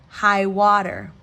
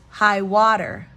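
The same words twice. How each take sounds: Both takes have the same delivery.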